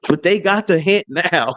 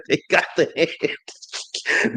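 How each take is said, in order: First: Said in the usual way. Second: Whisper. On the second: Acted. Gloating whispered repeat.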